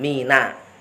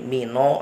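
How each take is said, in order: First: The word ends in a clear a vowel. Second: The word ends in an o vowel. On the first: The speaker calls it right. "nun fathah ini juga harus dijelaskan" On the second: The speaker calls it wrong. "jangan menjadi mino"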